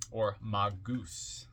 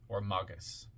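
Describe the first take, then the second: First: Magus drawn out slowly as mah-GOOS; MAH-goose. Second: Magus said MAH-gus, short weak ending. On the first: Reader jokes on the title like Mother Goose, magus as mah-goose. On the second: Reader offers another way of saying the title, magus as MAH-gus. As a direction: say magus with "ah" first and an unstressed "gus". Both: Shown as a demonstration. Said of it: "like Mother Goose".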